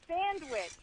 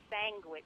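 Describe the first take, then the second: First: The first syllable ends in an nd sound. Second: The first syllable ends in an ng sound. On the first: "Like the beach. You have sand on the beach" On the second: "you're saying S A N G, like G is in girl"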